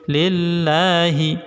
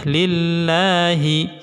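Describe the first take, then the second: The two takes are said the same way.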